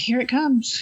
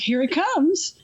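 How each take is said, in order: First: It is said flatly, in a bored, tired way. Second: It is said with exaggerated, dramatic energy. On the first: The speaker hides what he is doing. The speaker calls it right. "he was so bored and tired. He was just like" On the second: The speaker gives away what he is doing. The speaker calls it wrong. "the initial delivery was like"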